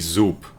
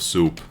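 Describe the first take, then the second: First: The word begins with a buzzing z sound. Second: The word begins with a hissing s sound. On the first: "I say zoop instead of soup" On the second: "Z instead of S"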